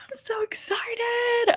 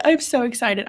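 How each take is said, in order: First: Breathy, thrilled whisper, pitched up; hushed squeal of excitement; excited whisper. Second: Said in the usual way. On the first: Real, not acted. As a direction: whisper it like a secret you can't contain. Thrilled about a book.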